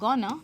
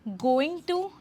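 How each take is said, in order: First: The two words blend into one short reduced word. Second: The two words are said fully and separately. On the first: "ज़्यादा natural sound करने के लिए हम गोना लिखेंगे" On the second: "आई एम गोइंग टू"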